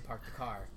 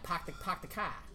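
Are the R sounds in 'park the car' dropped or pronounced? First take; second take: pronounced; dropped. First: The R sounds are fully pronounced. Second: The R sounds are dropped, Boston style.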